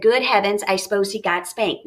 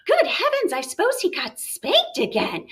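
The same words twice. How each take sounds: First: Said in the usual way. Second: High gasping good heavens, then falling; appalled mother's exclamation; shocked mom. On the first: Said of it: "That was my reading voice". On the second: Acted. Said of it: "What does that tell you about the mom".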